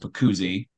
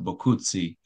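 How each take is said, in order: First: The name is said with an American pronunciation. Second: The name is said with an Italian pronunciation. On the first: "That's the more American way of pronouncing it" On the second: "the original Italian pronunciation"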